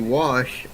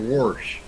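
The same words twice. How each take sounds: First: The word has its standard pronunciation. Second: The word has a local variant pronunciation. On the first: This is how the word should be said. "it's supposed to be wash" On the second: This is how the speaker habitually says it. "I always say wash"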